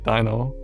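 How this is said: The name is said with English pronunciation. "English, probably"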